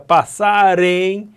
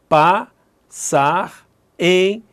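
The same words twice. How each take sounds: First: The final r links into the next word. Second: The two words are kept apart, not linked. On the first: The syllables are divided across the phrase. "Se fosse sílaba de frase, seria" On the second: Each word is split into its own syllables. "eu não vou juntar não"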